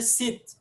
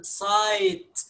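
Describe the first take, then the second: First: سيت with a short clipped i, like sit; wrong short vowel. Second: سايت drawn out slowly with a long ai; correct long vowel. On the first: Teacher showing the wrong way to Arabic learners, short vowel. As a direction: say سيت short, not سايت. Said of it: "ما قلناش". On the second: Teacher showing learners the right way, slow long vowel. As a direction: stretch سايت into a long ai diphthong. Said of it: "قلنا". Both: Shown as a demonstration.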